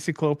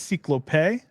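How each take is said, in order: First: The name is said with an American pronunciation. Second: The name is said with a non-American pronunciation. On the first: The speaker calls it wrong. "kind of Americanized when I say Cyclope" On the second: The speaker calls it right. "I think it's Cyclope"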